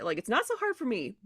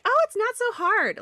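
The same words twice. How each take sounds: First: Said in the usual way. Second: High, slow, airy mock voice; mock breezy dismissal. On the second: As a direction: toss it off like it's nothing, much higher. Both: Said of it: "it doesn't help for me to be like".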